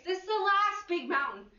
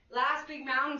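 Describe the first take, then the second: First: Last pitched high and leaned on; stress on last. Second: Said in the usual way. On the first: Acted. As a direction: push the word last up high. Instructor stressing the final set.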